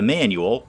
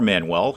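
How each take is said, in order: First: It is said like the everyday word manual. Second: It is said like the personal name Manuel. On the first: "either the Manual" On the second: "or Manuel, however you choose to pronounce that"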